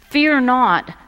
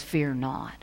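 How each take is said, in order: First: "Fear not" proclaimed high and loud; preacher booming "Fear not"; emphatic. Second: "Fear not" said softly, dropping low; hushed quote. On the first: Acted. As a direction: ring out "Fear not" from the pulpit. Repeating angel's words emphatically. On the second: Retold or imitated. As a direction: let "Fear not" fall quiet like a gentle quote. Quoting angel, then repeating emphatically.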